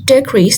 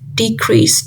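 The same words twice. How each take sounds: First: The stress is on the first syllable. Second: The stress is on the second syllable. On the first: It is used as a noun. "as a noun, decrease, the stress falls on the de, which is the first syllable" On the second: It is used as a verb. "decrease is a verb, and the stress falls on the second syllable"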